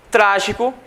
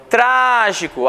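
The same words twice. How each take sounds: First: Said in the usual way. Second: "trágico" with a long, drawn-out first syllable TRA; stressed syllable. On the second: Shown as a demonstration. Teacher showing students the strongest syllable of "trágico", stressed and drawn out. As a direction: stretch the "trá" in "trágico" slowly. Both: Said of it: "A sílaba mais forte é o tra".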